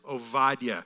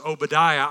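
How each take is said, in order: First: The name has a Hebrew-style pronunciation. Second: The name has an American English pronunciation. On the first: "The Hebrew pronunciation is Obadiah" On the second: "we've always pronounced it as Obadiah. I have. It's kind of the American way to say it"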